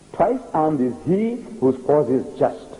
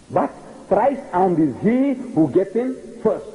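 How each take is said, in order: First: Slow, "Twice" hit hard; stress on twice. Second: Slow, "thrice" punched as the punchline; stress on thrice. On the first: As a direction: lean on "Twice armed", slowly. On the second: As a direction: land "thrice" like a knockout. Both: Shown as a demonstration.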